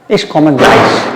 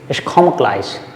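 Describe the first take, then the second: First: The final e of komme is pronounced. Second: The final e of komme is dropped.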